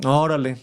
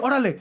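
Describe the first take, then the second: First: It is said in a flat, sarcastic tone. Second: It is said quickly, in a hurried tone. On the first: The speaker does not really care. "It would be very sarcastic" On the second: The speaker tells someone to hurry up. "like quick"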